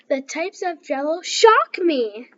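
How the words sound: It is read with lively expression.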